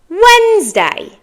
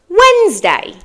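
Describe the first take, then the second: Both takes have the same delivery.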